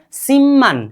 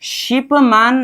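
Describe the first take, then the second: First: सिमन with p melted into a long double m; correct pronunciation. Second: शिपमान with a sounded p and long aa; wrong pronunciation. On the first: Teacher corrects the spelled-out reading, correct pronunciation. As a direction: say सिमन as sim-man, holding the m. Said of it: "शिपमान नहीं कि". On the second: Teacher shows the reading to avoid, wrong pronunciation. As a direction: say शिपमान as ship-maan, the p clearly separate. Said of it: "नहीं कि सिमन". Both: Shown as a demonstration.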